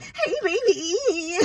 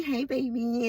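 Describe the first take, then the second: First: Put-on high, drawn-out goofy "hey, baby"; hammed-up squeaky playback; mock voicemail playback. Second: Said in the usual way. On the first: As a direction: stretch it out high and silly, laughing. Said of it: "and then they be like". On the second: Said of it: "you trying to leave a voicemail".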